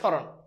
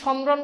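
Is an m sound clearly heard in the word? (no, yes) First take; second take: no; yes. First: No m sound, only slight nasalization. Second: The m sound is clearly pronounced after s. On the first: The speaker calls it right. "মফালা যদি শব্দের শুরুতে থাকে তাহলে সেই মফালার উচ্চারণ হয় না" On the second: The speaker calls it wrong. "তুমি কি সমরণ বলো? সমরণ না"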